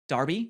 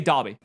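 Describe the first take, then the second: First: The R is sounded, American-style. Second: The R is silent, English-style.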